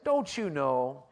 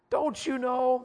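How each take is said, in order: First: Said in the usual way. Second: Don't you know said much higher, pressing on you; rising emphatic question. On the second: Shown as a demonstration. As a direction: lift it high on you like a challenge. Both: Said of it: "I like to say it like this".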